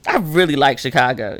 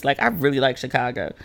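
First: Said in the usual way. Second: Softer, heartfelt affection; sincere fondness. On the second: Real, not acted. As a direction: say it softly like you mean it. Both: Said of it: "If you can hear it in my voice".

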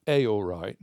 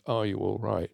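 First: "Hey, all right" with HEY run straight into "all right"; "Hey, all right", its first words squeezed into "ay-or"; dialect form. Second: Said in the usual way. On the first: Shown as a demonstration.

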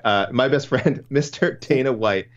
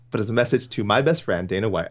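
First: Slow, higher, stretching "best friend" and "Mister"; mock grand emphasis. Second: Said in the usual way. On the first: Rereading fan's email with emphasis.

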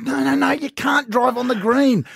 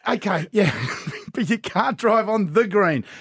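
First: Higher, slower mock exasperation; father correcting his daughter on the golf green; exasperated dad. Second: Slower, chuckling correction; father giving in to laughter while repeating the rule; laughing dad. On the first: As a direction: spell out the rule firmly. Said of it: "I said". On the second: Retold or imitated. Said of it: "I went".

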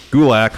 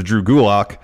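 First: Louder "Gulak", ending like lack; corrected pronunciation. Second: "Gulak" ending in an open ah, like lock; name pronunciation. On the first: Host correcting the wrestler's name, "Gulak" rhymed with lack. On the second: Host reading out a match card, "Gulak" rhymed with lock. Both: Shown as a demonstration. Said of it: "once again".

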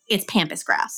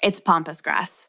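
First: "pampas" as PAM-pus, vowel as in "ham"; short-a pampas. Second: "pampas" as POM-pus, like pompous, slow; ah-vowel pampas. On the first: Host stating their pronunciation, "pampas" with short a as in cat. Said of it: "How do you pronounce pampas grass". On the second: Co-host correcting the host, "pampas" said like pompous. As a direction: say "pampas" with the ah of "father". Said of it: "I'm pretty sure it's pronounced". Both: Shown as a demonstration.

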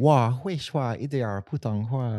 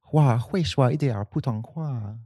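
First: Learner Mandarin, trailing softer; Mandarin demo. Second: Mandarin phrase, dropping to quiet at the end; retold Mandarin phrase. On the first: Shown as a demonstration. Showing her friend the phrase, learner Mandarin demo. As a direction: repeat "Hua, hui shua, yi dian, putong hua" slowly as a learner. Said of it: "I speak a little Mandarin". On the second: Retelling a shop visit, speaking careful learner Mandarin. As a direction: say "Hua, hui shua, yi dian, putong hua" as careful learner Mandarin. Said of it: "And I said".

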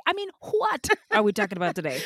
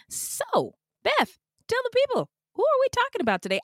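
First: Said in the usual way. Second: High, fast sing-song host voice; playful high voice. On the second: Pretend. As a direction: ham up the cue to your co-host. Hosts' bit, playful high voice.

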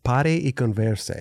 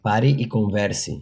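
First: "Pare e converse" repeated slowly with rolled R; repeating Portuguese. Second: Careful slow "Pare e converse"; Portuguese phrase. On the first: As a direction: echo "Pare e converse", tongue roll. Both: Shown as a demonstration. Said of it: "Say it one more time".

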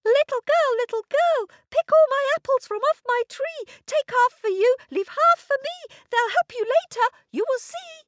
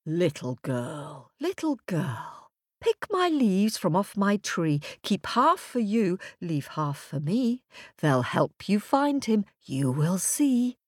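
First: Very high, loud squeaky tree voice; talking apple tree. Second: Lightly voiced talking tree, hushed at first; whispering birch tree. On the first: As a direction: chant it loud and piercingly high. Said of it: "said the apple tree". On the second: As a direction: chant it like a mysterious storybook tree. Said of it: "whispered the birch tree". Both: A narrator's reading.

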